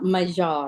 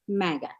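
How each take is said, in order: First: The middle consonant is a soft j sound. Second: The middle consonant is a hard g sound. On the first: The speaker calls it wrong. "not Majah or whatever" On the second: The speaker calls it right. "You know it's MAGA"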